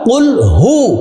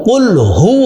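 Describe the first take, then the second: First: The second word begins with an h sound. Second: The same.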